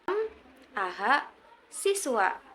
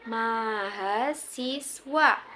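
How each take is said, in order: First: The word is broken after m and aha. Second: The word is said smoothly without breaks. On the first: The speaker calls it wrong. "apalagi m, aha, siswa" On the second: The speaker calls it right. "Dibacanya mahasiswa"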